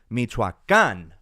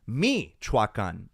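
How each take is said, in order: First: The stress is on the last syllable. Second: The stress is on the first syllable. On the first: The speaker calls it right. "That's why the accent is there at the very end" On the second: The speaker calls it wrong. "if the accent were on the I at the very beginning, it would sound like"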